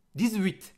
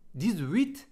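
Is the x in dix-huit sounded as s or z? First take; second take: z; z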